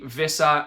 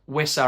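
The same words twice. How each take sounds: First: The name is said with a German pronunciation. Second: The name is said without a German pronunciation. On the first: The speaker calls it wrong. "I was getting the German pronunciation in there" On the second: The speaker calls it right. "I meant"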